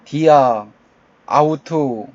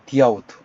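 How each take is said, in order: First: Two vowels are said separately, dia then aut. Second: The words are linked into one form, diaut. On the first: The speaker calls it wrong. "좀 이상하죠" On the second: The speaker calls it right. "디아우트 연결해서 읽어줍니다"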